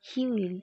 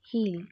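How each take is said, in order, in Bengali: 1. দুটো শব্দই আলাদাভাবে পূর্ণ রূপে বলা হয়। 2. শব্দ দুটো জুড়ে একটি ছোট ধ্বনিতে বলা হয়।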